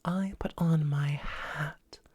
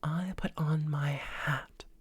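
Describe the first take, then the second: Both takes have the same delivery.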